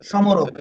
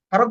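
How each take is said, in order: First: An m sound follows the s. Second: No m sound follows the s. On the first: The speaker calls it wrong. "যদি ম এর উচ্চারণ হতো তাহলে হতো সমরক।" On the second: The speaker calls it right. "স্মারক বলব না সমরক বলব? ... ম এর উচ্চারণ হচ্ছে না।"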